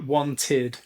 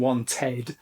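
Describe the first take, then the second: First: The ending sounds like id. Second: The ending sounds like ed. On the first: "In the United Kingdom, we pronounce that wanted" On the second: "some U S accents may pronounce it more ed"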